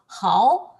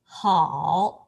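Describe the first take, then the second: First: The pitch rises steadily upward. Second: The pitch dips down and then turns up. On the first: "the second tone is the uh, kind of up" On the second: "the third tone uh, should be make a turn"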